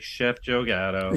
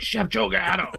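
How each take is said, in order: First: The name is said in a sad voice. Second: The name is said in an angry voice. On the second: "really angry"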